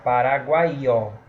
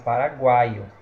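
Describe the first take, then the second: First: The final vowels are split into separate syllables. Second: The final vowels are run together in one syllable. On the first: The speaker calls it wrong. "Se nós separarmos paraguaio, vai ficar paraguaió" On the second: The speaker calls it right. "porque a palavra é paraguaio"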